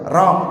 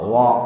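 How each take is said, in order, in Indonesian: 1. Kata ini diawali dengan bunyi R yang jelas. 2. Kata ini justru diawali dengan bunyi W. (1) "Kalau roh kali pantas cadel"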